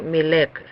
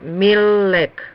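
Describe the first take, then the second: First: The middle consonant l is said once. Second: The middle consonant l is held doubled. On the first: The speaker calls it wrong. "No milek" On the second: The speaker calls it right. "Por eso se lee dos veces"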